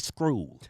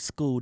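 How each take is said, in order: First: The word is said with a Southern pronunciation. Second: The word is said with a standard pronunciation. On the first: "they say screw" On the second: "they don't say school"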